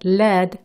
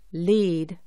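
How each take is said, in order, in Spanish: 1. La vocal es corta, como en 'led'. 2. La vocal es larga, como en 'leed'. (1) "es plomo" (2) "es verbo y quiere decir encabezar o guiar"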